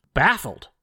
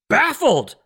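First: Said in the usual way. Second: BAFFLED drawn out with exaggeration; mock bafflement. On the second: Host mocks confused history professors, exaggerated bafflement. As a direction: stretch the word in sarcastic disbelief.

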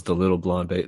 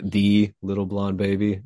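First: Said in the usual way. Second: "the" said as a stressed "thee". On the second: Real, not acted. Recalling being the one blonde child around, stress on "the" as "thee". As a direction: lean on "the" as THEE, the one and only. Repeats article with emphatic pronunciation.

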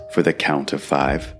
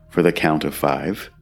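No difference in how they are said.

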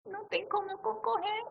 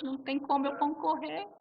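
First: High, weepy whimper of defeat; mock crying. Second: Said in the usual way. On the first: Repeating her defeat to the hosts, in a high weepy whimper. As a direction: whine it like a sob.

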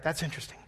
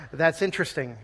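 First: "That's interesting." said much softer and flat-toned; quiet Presbyterian amen; softer reserved repeat. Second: Lightly voiced reserved agreement; a hint of restrained churchgoer; mock polite reserve. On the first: Retold or imitated. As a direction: murmur "That's interesting." as a polite dismissal. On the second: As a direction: say it politely noncommittal. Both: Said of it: "that's a Presbyterian amen".

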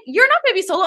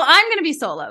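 First: "You're not" pushed up high in a hurt protest; high, upset stress on "not". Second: "I'm" hit hard, set against "you're"; stress on I'M. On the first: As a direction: lean on "You're" and "not" in "You're not gonna be solo". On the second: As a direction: stress shifted to "I'm", upset. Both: Retold or imitated. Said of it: "And I was also like".

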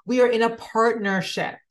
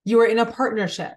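First: Are leaned on, we in a partnership; we ARE in a partnership, said firmly; stress on are. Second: YOU hit first and hard, a touch quicker; stress on YOU. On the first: Telling her viewers that they and time are partners, stress on are. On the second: Turning the point onto her viewers, stress on YOU. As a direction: point it at the listener, YOU are in a partnership. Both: Shown as a demonstration.

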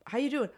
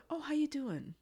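First: Said in the usual way. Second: High, chirpy greeting; bright sing-song office greeting; cheery coworker voice. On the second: Retold or imitated. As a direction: sing out a friendly hello. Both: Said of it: "and he's like".

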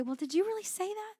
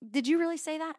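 First: High-pitched doubtful challenge; incredulous questioning. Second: Mock-doubting, raised-pitch question; a touch of disbelief, pitched up; doubtful questioning. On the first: Acted. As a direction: ask it high, climbing in disbelief. Acting out doubting God's word. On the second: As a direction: ask it higher and louder, as if challenging. Repeats the doubting question to God.

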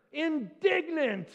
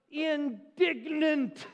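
First: Indignant slow and weighty again; stress on Indignant. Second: Indignant drawn out slowly with weight; stress on indignant. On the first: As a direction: lean into Indignant, slowly. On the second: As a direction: stretch out indignant, savouring the word. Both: Shown as a demonstration. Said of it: "That's a good biblical word".

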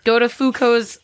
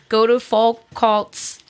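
First: Foucault's as foo-KOHZ, silent l and t; Foucault's said correctly. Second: Foucault's said as fol-KOLTS, slowly; Foucault's mispronounced. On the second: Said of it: "I was just looking up how to". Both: A narrator's reading.

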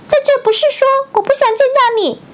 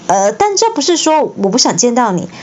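First: Slipped into the high elf voice; line said too high by mistake; wrong voice take. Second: Said in the usual way. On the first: Shown as a demonstration. Reader misreads Harry's line in Dobby's pitch. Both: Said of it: "啊，不对。".

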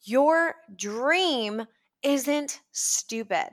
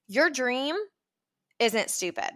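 First: Very slow, every word weighted; earnest, drawn-out reassurance; slow, deliberate emphasis. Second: Said in the usual way. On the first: Real, not acted. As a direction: repeat it slowly so it sinks in.

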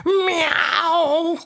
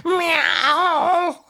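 First: Cat imitation meow. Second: Cat meow. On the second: Pretend. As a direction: answer with your own meow. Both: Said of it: "Do it again".

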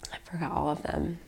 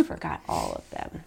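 First: Far softer sad repeat; a hushed echo; near-whisper. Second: Much softer, sad admission; quiet sad confession; soft realization. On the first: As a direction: barely breathe it out. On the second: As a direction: let it fall away quietly. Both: Real, not acted.

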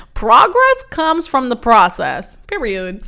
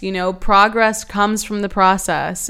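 First: Louder, proud catchphrase read; slogan delivery. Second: Said in the usual way. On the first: Shown as a demonstration. Host proclaims her new motto to listeners, louder and proud. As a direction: announce it like a t-shirt slogan. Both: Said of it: "let's put that on a t-shirt".

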